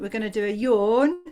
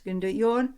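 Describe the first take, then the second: First: Said in the usual way. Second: Words stretched by a yawn. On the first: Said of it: "something like this". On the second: Shown as a demonstration. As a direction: talk through a demo yawn. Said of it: "So it's gonna be something like this".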